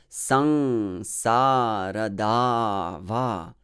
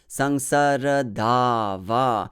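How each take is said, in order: First: The first two syllables are long and heavy. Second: The first three syllables are short and fast. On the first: The speaker calls it right. "Heavy, heavy, light, heavy, heavy" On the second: The speaker calls it wrong. "the first three syllables sound like light"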